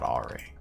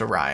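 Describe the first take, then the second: First: The word is said like the name Ari. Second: The word is said the usual way, like uh-rye. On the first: The speaker calls it wrong. "I pronounced awry like Ari" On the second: The speaker calls it right. "why is it pronounced awry"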